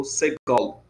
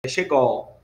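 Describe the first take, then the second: First: SEGOL starting with a plain "s" sound; s variant. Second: SHEGOL starting with a "sh" sound; sh variant. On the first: Teacher giving the alternative vowel name, s variant of Segol. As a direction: open Segol with "s", not "sh". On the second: Teacher offering a vowel's name to students, sh variant of Shegol. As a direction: open Shegol with a hushing "sh". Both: Shown as a demonstration. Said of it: "ou Segol".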